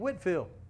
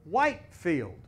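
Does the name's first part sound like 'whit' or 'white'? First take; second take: whit; white. First: The first part sounds like 'whit', not 'white'. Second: The first part sounds like the word 'white'. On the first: This is how it was said in England. "over here, they did not pronounce his name Whitefield" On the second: This is how it was said in the colonies.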